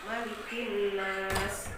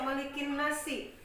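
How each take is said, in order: First: The phrase ends on a stopped consonant. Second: The phrase ends with a final vowel sound. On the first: The speaker calls it right. "tapi dibaca malikin nas" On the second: The speaker calls it wrong. "kalau kita berhenti jangan dibaca malikin nasi"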